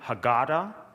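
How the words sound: It is said with an American accent.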